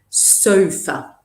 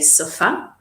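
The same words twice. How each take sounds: First: The stress falls on the first syllable. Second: The stress falls on the second syllable. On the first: The speaker calls it right. "we put the stress on the O" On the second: The speaker calls it wrong. "A lot of uh, Italian students say sofa"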